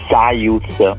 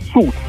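First: A 'y' glide comes before the vowel. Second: A plain long 'oo' with no glide. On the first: The speaker calls it wrong. "ma no!" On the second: The speaker calls it right. "come se non ci fosse la I"

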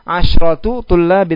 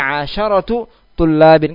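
First: The sh sound has no vowel after it. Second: The sh sound is followed by an a vowel. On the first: The speaker calls it wrong. "Tidak dikatakan apa? Asyratu tullabin" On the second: The speaker calls it right. "Tapi asyratu tullabin. Kenapa pakai sya' fathah?"

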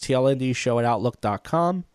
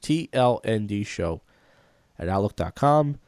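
First: It is said fast. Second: It is said slowly.

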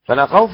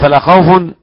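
First: The word ends in a short a, no nunation. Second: The word ends in -un, with nunation. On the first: Fear of every kind is wholly denied. "فلا خوف لا نفي للجنس" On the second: Only fear itself is denied. "أما فلا خوف نفي الشيء"

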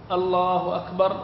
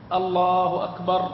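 Both takes have the same delivery.

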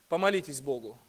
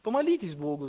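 First: It is said in a lofty, condescending tone. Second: It is said in a humble, less important tone. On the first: The speaker feels superior and grants a favor. "с высоты своего положения, ну, ладно, так уж и быть ... с чувством собственного достоинства" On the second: The speaker admits fault and asks for help. "совсем другой интонацией, уже не такой важной"

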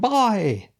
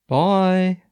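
First: It is said with lots of energy. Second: It is said lazily, with little energy.

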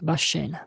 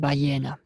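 First: It is said the way Buenos Aires residents say it. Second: It is said the way Spaniards say it. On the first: "для жителей города Буэнос-Айреса, то, наверное, он скажет «башена»" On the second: "если спрашиваешь испанцем, то тебе говорит «баена»"

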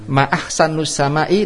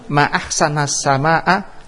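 First: The n of ahsan carries a u vowel. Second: The n of ahsan carries an a vowel. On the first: It asks what is most beautiful in the sky. "nunnya doma" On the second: It exclaims how beautiful the sky is. "nunnya fathah"

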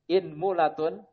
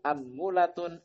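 First: The word begins with the vowel i. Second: The word begins with the vowel a. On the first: "Di kasroh hamzahnya" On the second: "dengan fathah yang pertama hamzahnya"

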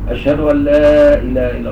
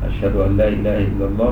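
First: The phrase is said in a loud, raised voice. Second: The phrase is said in a soft, quiet voice. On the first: "بصوت مرتفع" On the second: "بصوت خفيف"

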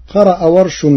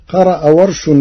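The two takes are said the same way.

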